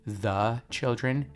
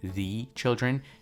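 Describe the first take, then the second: First: The article is said fully and clearly. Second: The article is short and barely pronounced. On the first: The speaker calls it wrong. "Notice I'm not saying the children" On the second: The speaker calls it right. "It's like I'm almost saying the alone and skipping"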